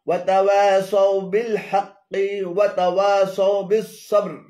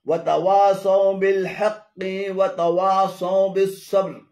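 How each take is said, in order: Both takes have the same delivery.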